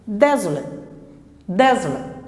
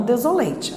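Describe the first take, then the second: First: "desolate" com "late" reduzido a "lât"; força no "de", final curto e átono; final com schwa. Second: "desolate" com final "lêiti", vogal cheia; pronúncia errada. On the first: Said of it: "Então, ele fica". ("desolate" como "DÉ-zo-lât") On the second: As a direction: leia "late" inteiro no fim de "desolate". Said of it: "e não desolate". ("desolate" à brasileira, terminando em "lêitchi") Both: Shown as a demonstration.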